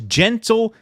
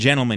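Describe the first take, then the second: First: It is broken into two separate words. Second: It is said smoothly as one word. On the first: They are not really gentle men. "he says gentlemen, to barb them even harder" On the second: It is an ordinary polite greeting. "He doesn't just say ladies and gentlemen"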